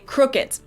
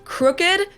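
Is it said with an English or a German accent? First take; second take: German; English. First: The final D sounds like T, German style. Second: The final D is voiced, English style.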